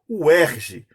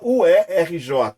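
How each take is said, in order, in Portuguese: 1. Ela é lida como uma palavra, em sílabas. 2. Cada letra é falada separadamente. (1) "você fala" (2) "você não fala"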